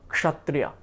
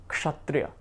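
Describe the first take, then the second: No difference in how they are said.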